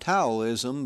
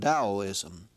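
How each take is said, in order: First: The word begins with a T sound. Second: The word begins with a D sound. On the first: The speaker calls it wrong. "It is not Taoism" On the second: The speaker calls it right. "but Taoism"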